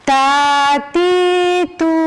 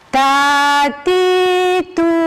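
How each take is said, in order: No difference in how they are said.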